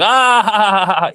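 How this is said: It is said as a laugh.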